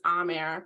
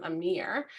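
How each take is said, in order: First: Amer, stressed on a long opening "ah"; correct pronunciation. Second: Amir, stressed on the second syllable "meer"; mispronounced name. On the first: Shown as a demonstration. Sister giving her brother's real name, correctly pronounced. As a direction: say Amer as "AH-mer". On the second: Retold or imitated. Sister quoting what everyone called her brother, mispronounced. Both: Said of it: "everyone called him Amir".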